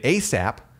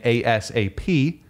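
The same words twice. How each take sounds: First: It is spoken as a single word. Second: It is spoken as four separate letters. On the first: It is treated as an acronym. "more like a word" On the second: It is treated as an initialism. "that's an initialism"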